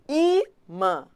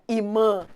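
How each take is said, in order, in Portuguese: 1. O acento está na primeira sílaba. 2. O acento está na segunda sílaba. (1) "A mais forte é o I" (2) "Não é imã"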